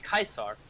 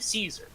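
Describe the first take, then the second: First: The name begins with a hard K sound. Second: The name begins with a soft S sound. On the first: The speaker is loyal to Caesar. "if you are loyal to Caesar, you would say" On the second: The speaker is not loyal to Caesar. "if you were not loyal to him, you would say"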